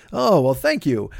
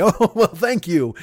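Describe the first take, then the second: First: Flat mock gratitude; dry sarcastic thanks. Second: Slow laughing thanks. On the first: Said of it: "I don't think that's true". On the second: Real, not acted. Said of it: "At least you got a sense of humor".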